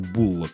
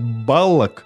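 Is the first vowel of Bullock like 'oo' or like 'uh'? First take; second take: oo; uh. First: The first vowel sounds like 'oo'. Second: The first vowel sounds like 'uh'. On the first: This is the Australian pronunciation. "это вот такие особенности австралийского произношения Буллок" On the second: This is how the rest of the English-speaking world says it. "весь остальной англоязычный мир нормально произносит Баллок"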